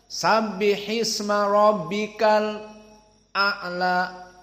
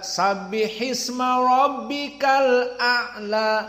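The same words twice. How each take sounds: First: It has a brief stop before the glottal stop. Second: It flows without a stop before the glottal stop. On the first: This is the reading of Hamzah. "maka di sini as-saqt" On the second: This is the reading of the majority. "indal jumhur"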